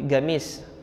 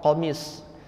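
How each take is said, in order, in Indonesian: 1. Bunyi pertama mirip dengan g. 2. Bunyi pertama adalah q yang dalam. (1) "pengucapan qafnya itu agak ke arah e, agak ke arah g gitu" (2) "sejatinya hurufnya adalah qaf"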